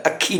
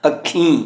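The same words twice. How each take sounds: First: ਅੱਖੀਂ said as akkhi, oral final ee; un-nasalised ending. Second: ਅੱਖੀਂ with a nasal final ee; nasalised ending. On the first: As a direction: drop the nasal from the end of ਅੱਖੀਂ. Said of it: "ਅੱਖੀਂ ਨਹੀਂ ਪੜ੍ਹਨਾ". (ਅੱਖੀਂ ਨੂੰ ਬਿੰਦੀ ਬਿਨਾਂ 'ਅੱਖੀ' ਬੋਲੋ) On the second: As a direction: let the ee of ਅੱਖੀਂ ring through the nose. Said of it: "ਬਿਹਾਰੀ ਦੇ ਉੱਪਰ ਬਿੰਦੀ ਦਾ ਉਚਾਰਨ". (ਅੱਖੀਂ ਦੀ ਬਿਹਾਰੀ ਨਾਸਕੀ ਬੋਲੋ) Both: Shown as a demonstration.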